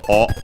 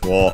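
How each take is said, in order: First: It is a bare vowel with no w sound. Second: It begins with a w glide before the vowel. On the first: "the usual uh, object particle o" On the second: "also pronounced as wo when uh, uh, in careful speech"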